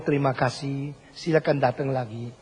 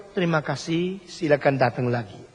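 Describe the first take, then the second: First: Sincere Indonesian thanks. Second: Mock rote greeting. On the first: Retold or imitated. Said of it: "kalau engkau lihat orang Indonesia". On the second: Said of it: "Kalau bilang terima kasih".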